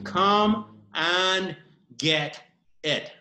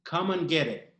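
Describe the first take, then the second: First: It is said slowly. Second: It is said at normal speed.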